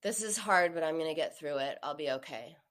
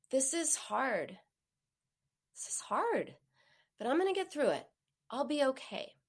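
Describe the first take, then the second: First: Gloomy monotone self-talk; funeral tone. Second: Tender comforting voice; soothing tone. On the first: Retold or imitated. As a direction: say it like a funeral dirge. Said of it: "He sounded like he was at a funeral". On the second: Shown as a demonstration. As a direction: wrap the words in a verbal hug. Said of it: "So a soothing tone".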